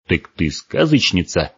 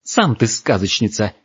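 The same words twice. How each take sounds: First: Slow, mildly surprised question; a touch of wonder, at normal pitch. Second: Indignant retort, a little higher; offended girl snapping back; angrier. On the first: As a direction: ask in puzzled realisation. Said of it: "удивился Гморк". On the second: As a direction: throw the word back at him crossly. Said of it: "ещё сильнее разозлилась девушка". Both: A narrator's reading.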